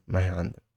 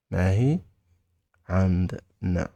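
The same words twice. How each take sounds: First: Said in the usual way. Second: "ما هي", long pause, then "عندنا" in syllables; word by word. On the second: Shown as a demonstration. Teacher modelling we don't have it, word by word. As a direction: separate and stretch "ما هي عندنا" for learners.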